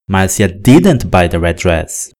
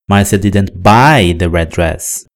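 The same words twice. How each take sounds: First: The word didn't carries the strongest stress. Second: The word buy carries the strongest stress. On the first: She looked at and tried it but did not buy it. "o que eu estou dizendo é que ela não comprou" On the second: She got the dress some way other than buying. "a ideia comunicada é de que ela ganhou o vestido"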